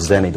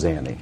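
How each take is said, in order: First: The first vowel sounds like the 'e' in bed. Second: The first vowel sounds like the 'a' in cat. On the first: The speaker calls it wrong. "Instead of Zenny, what you're saying" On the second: The speaker calls it right. "Pronunciation, sir, is Zanny"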